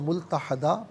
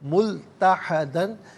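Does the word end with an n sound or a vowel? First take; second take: vowel; n sound. First: The word ends with a long a vowel. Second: The word ends with an n sound. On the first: The reader stops at this word. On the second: The reading continues without stopping.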